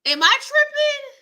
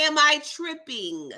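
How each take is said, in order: First: Much higher, louder, squealing disbelief; squeaky disbelief. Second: Said in the usual way. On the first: Real, not acted. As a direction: shriek it like you can't believe it. Disbelief repeated twice.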